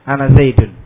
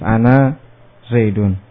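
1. Vokal akhir dari ana itu pendek. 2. Vokal akhir dari ana itu panjang. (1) "kalau dibaca pendek" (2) "ketika wakaf dengan alif"

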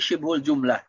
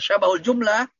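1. Kata pertama diucapkan sebagai syibhul. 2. Kata pertama diucapkan sebagai syabahul. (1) "tetapi syibhul jumlah" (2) "Bukan syabahul jumlah"

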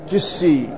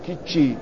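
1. الصامت الأوسط هو صوت s. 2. الصامت الأوسط هو صوت ch. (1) "قال بمهملة يعني بالسين" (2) "ينطقها بما هو قريب من الجيم"

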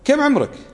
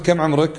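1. يُسأل بنبرة ازدراء واستصغار. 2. يُسأل بنبرة استفهام عادية ومحايدة. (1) "لما أشوف واحد أستصغره" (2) "وأنا قاعد أكتب معلومات"

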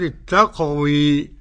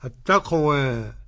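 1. الحركة الأخيرة تميل كثيراً نحو 'ee'. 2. الحركة الأخيرة تميل قليلاً نحو 'e'. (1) "وقرأ بالإمالة الكبرى حمزة والكسائي وخلف العاشر" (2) "وقرأ أبو عمرو بالتقليل فقط"

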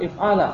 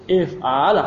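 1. Bunyi l-nya pendek dan tunggal. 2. Bunyi l-nya ditahan dan ganda. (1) "Bukan if'ala" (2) "Lamnya di double"

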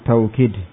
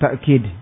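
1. Bunyi tengahnya adalah luncuran w. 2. Bunyi tengahnya adalah hamzah. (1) "bilwawu, dengan wawu" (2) "bil hamzah, dengan hamzah"

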